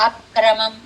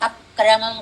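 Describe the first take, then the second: The two takes are said the same way.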